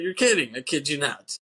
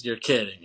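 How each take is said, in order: First: Mocking movie line. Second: Said in the usual way. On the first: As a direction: ham up "You're kidding." to make fun of the line.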